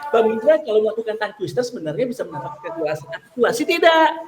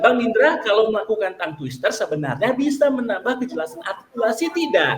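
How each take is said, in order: First: The sentence is read very fast. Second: The sentence is read fast. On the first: "Tambah cepat lagi"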